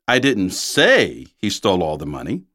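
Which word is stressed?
say. The stress is on the word say.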